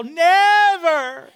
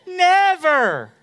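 First: Higher, louder mock tantrum cry; toddler yell. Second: Higher, laughing mock child plea; half-laughed toddler protest; child whine. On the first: Son flopping on the floor, mock yell. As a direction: yell it like a three-year-old. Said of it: "just yell". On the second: Son begging for the phone, mock whine. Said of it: "I never get to play".

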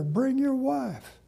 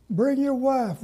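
First: Slow, stress on your in Bring your wife; slow insistent repeat. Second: Eager plea. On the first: Pastor pressing Brother Curtis to bring his wife, slow insistence. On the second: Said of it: "Now, Brother Curtis". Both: Retold or imitated.

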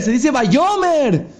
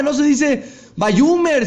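First: Shouted "Vayomer" with a clear round o, slow and high; high slow shouted correction "Vayomer"; correct reading. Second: Shouted "Vayomer" said as "Vayumer", with an u in the middle syllable, slow and high; high slow shout of the mistaken "Vayumer"; wrong reading. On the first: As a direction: yell the right "Vayomer", every syllable drawn out. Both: Retold or imitated. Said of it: "empiezan a gritar al rabino".

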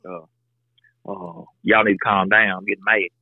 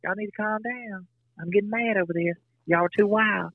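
First: Imitating wife. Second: High, soft, unconvincing mock-scold; imitating wife. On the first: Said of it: "She'll be like". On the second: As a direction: play the wife scolding in a high, soft voice that doesn't sound mad at all. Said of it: "this is the way she'll say it".

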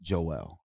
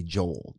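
First: Joel in two syllables, JOH-el; native pronunciation. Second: Joel in one syllable, JOHL. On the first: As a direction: say Joel low and slow as JOH-el. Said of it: "it's pronounced Joel". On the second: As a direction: say Joel as "jole", rhyming with coal. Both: Shown as a demonstration.

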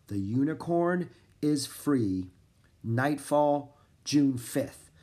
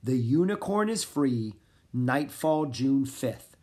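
First: Slow, spaced-out dictation pace; measured repeat with pauses between phrases; repeating while writing. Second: Said in the usual way. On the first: A narrator's reading. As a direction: say it piece by piece as you write it down. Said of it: "repeated as he wrote down the message". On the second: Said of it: "Gaston repeated as he wrote down the message".

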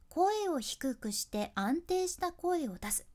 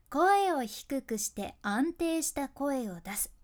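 First: Slow, even read of the tip; slow steady voice. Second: Slow, measured delivery of the tip; slow steady voice. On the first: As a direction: state it calmly, one word at a time. (「声を出す」まで落ち着いてゆっくり) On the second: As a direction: lay each word down calmly and slowly. (「声を低くして」をゆっくり安定して) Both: Shown as a demonstration.

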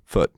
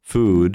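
First: "foot" clipped with a T; short, voiceless ending. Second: "Food" stretched, lower, ending in D; long, voiced ending. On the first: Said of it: "Jedno je delší". (krátké „foot“ s T) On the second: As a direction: hold the vowel in "Food". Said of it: "Jedno je delší a obsahuje Dčko". (dlouhé „Food“ se znělým D) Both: Shown as a demonstration.

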